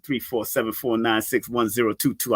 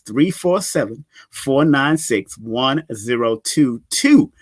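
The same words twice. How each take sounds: First: The number is read at normal speed. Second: The number is read slowly.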